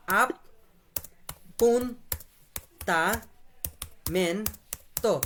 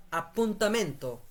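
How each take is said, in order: First: "appuntamento" very slowly, ap-pun-ta-men-to with long gaps; syllable by syllable. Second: Said in the usual way. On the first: Shown as a demonstration. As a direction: break "appuntamento" into five separate syllables. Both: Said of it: "এটা syllable আকারে পড়বো আমরা".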